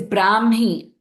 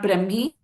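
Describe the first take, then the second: First: The first vowel is held long. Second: The first vowel is kept short. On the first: The speaker calls it right. "It's a Brahmi, ... Bra also has the Dirgham" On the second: The speaker calls it wrong. "not Brahmi"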